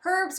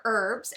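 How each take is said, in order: First: "herbs" with an audible H; H sounded. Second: "herbs" without the H; silent H. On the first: Explaining the game, offering "herbs" with its H. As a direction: breathe the H at the start of "herbs". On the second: Offering the other way, "herbs" with silent H. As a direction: start "herbs" straight on the vowel. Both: Shown as a demonstration. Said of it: "or herbs".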